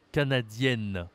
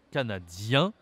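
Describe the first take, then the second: First: CANADIENNE ending "-yenn", n sounded; falling "canadienne" with a held final n; feminine pronunciation. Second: CANADIEN with "ien" through the nose; rising "canadien", no n sounded; nasal ending. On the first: Teacher contrasting endings for a learner, feminine pronunciation. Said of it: "la prononciation est différente". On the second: Teacher showing it goes with the nose, nasal ending. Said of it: "ça va avec le nez". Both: Shown as a demonstration.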